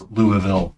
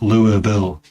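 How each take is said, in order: First: The name is said fully with more syllables. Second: The name is said reduced with fewer syllables. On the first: The speaker calls it right. "It's Louisville, Use more syllables, please" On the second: The speaker calls it wrong. "not Louisville"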